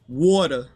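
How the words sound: It is said in a Manhattan accent. "that's how you say it if you're, you're from Manhattan"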